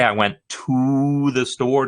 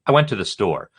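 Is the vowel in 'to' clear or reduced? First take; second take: clear; reduced. First: The vowel in 'to' is a full 'oo'. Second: The vowel in 'to' is a reduced schwa. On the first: "Did I really get that ooh sound out?" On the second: "Did I really get that ooh sound out? No"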